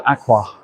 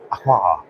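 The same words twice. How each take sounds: First: "Aqua" with a short, weak final vowel, AK-wuh; first pronunciation. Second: "Aqua" with an open final ah, AK-wah; alternative pronunciation. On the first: Vlogger showing the debated brand name, "Aqua" said AK-wuh. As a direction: say "Aqua" ending in a neutral uh. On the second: Vlogger showing the debated brand name, "Aqua" said AK-wah. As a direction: end "Aqua" on a full ah. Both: Shown as a demonstration. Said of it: "debate over whether it's Aqua or Aqua".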